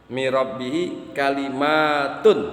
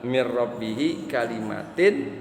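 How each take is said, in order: First: The last word ends with an 'un' sound. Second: The last word ends with an 'in' sound. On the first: "kalimatnya dibaca roh rofa" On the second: "di sini adalah mir rabbihi kalimatin"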